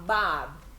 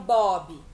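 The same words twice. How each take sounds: First: The vowel sounds like an open 'ah'. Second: The vowel sounds like a rounded 'oh'. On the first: The speaker calls it right. "eles falam" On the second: The speaker calls it wrong. "Eles não falam"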